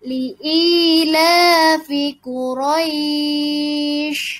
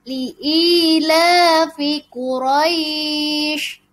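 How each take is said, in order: First: The vowel before the end is held longest. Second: The vowel before the end is held longer. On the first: "Atau enam harokat. Dipanjangkan lagi boleh" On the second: "empat harokat. Dipanjangkan"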